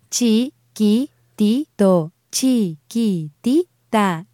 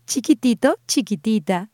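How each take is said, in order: First: "Chiquitito" slow, syllable by syllable; staccato. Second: Said in the usual way. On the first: Shown as a demonstration. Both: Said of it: "break down these words syllable by syllable".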